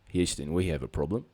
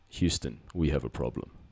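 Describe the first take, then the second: First: It is said in a put-on Australian accent. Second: It is said in the speaker's natural accent.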